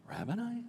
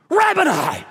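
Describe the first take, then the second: First: Questioning. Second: "Rabboni!" called out high and loud; joyful cry. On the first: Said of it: "Or did she go". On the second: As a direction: burst out "Rabboni!" in sudden recognition. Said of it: "I think she went". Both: Shown as a demonstration.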